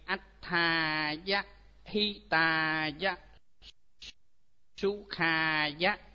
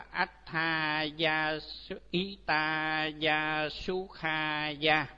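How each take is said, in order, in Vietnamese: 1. Các nguyên âm được giữ ngắn. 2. Các nguyên âm được kéo dài ra.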